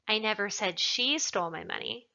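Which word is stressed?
she. The word 'she' is emphasized. Someone else stole it. "Perhaps somebody else stole it"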